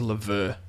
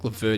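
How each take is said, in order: First: The name is said the French-style way. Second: The name is said the anglicised way. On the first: "I feel like it's a Lever" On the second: "it's been um, anglicised"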